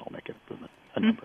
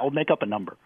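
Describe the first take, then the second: First: It is said in a French accent. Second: It is said in the speaker's plain accent.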